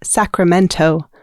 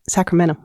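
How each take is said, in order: First: The t sound is clearly pronounced. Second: The t sound is dropped. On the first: The speaker calls it right. "remember that the capital of our state is Sacramento" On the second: The speaker calls it wrong. "not Sacramento"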